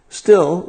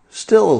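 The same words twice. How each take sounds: First: "still" pitched high and falling; repeated stress on still. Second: "Still" said high and drawn out with a falling end; stress on Still. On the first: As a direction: hit "still" again, high. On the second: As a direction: lean on "Still" and let it fall. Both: Shown as a demonstration.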